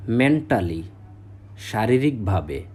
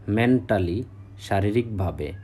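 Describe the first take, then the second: No difference in how they are said.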